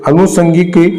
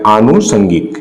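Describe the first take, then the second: First: It begins with a short vowel and plain 's'. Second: It begins with a long vowel and 'sh' sound. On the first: The speaker calls it wrong. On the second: The speaker calls it right.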